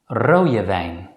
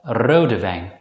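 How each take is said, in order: First: The consonant in rode sounds like a y. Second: The consonant in rode sounds like a d. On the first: "many native Dutch speakers pronounce it as je" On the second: "you may also pronounce the letter D normally as D"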